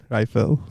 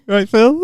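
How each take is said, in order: First: Casual nod. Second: High, bright passing hello; high matey aisle greeting; chirpy greeting. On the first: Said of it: "I was just like". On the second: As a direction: call it out in passing. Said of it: "I was like". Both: Retold or imitated.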